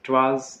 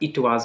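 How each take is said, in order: First: It is said as one contracted syllable. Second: It is said as two separate syllables. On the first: The speaker calls it right. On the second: The speaker calls it wrong.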